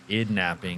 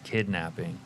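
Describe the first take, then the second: First: The opening K sound is left out. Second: The opening K sound is clearly pronounced. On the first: The speaker calls it wrong. "It's not idnapping" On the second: The speaker calls it right. "it's kidnapping"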